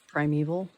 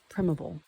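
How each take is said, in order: First: The word ends with a sound like 'evil'. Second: The word ends without a sound like 'evil'. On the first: The speaker calls it wrong. "it contains the sound of the word evil" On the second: The speaker calls it right. "I'm choosing to pronounce it primeval"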